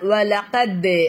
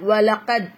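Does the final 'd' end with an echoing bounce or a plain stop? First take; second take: bounce; plain stop. First: The final consonant ends with an echoing bounce. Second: The final consonant ends in a plain, flat stop. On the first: The speaker calls it right. "வலகத் அப்படின்னு சொல்லணும். இதுதான் அசைச்சு ஓதுறது சட்டம்" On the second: The speaker calls it wrong. "இத வலகத் அப்படின்னு சொல்லாம"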